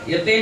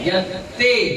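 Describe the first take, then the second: First: The t sound is short and single. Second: The t sound is held and doubled. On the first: The speaker calls it wrong. "यत्ते नहीं बोलना है" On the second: The speaker calls it right. "दो ता है"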